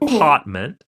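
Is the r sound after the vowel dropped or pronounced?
dropped. The r after the vowel is dropped.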